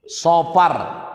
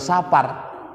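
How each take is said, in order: First: The word is said with an o vowel, like 'Sofar'. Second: The word is said with an a vowel, like 'Sapar'. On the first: It names the second month of the Hijri calendar. The speaker calls it right. "Padahal penyebutannya Sofar" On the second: It means a journey. The speaker calls it wrong. "dibaca orang Sapar"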